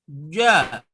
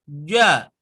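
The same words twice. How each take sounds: No difference in how they are said.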